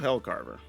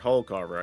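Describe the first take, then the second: First: The first syllable sounds like 'hell'. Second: The first syllable sounds like 'hull'. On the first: The speaker calls it wrong. "I keep saying that wrong" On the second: The speaker calls it right. "Or Hullcarver"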